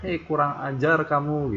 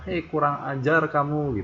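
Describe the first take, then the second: First: It is said loudly and angrily. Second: It is said loudly and angrily.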